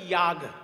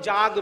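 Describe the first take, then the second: First: It is said with the Sanskrit pronunciation. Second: It is said with the Bengali pronunciation. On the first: "সেটার সংস্কৃত উচ্চারণ হচ্ছে ইয়াগ" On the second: "আসলে বাঙালি তো ওই জন্য যাগ বলি"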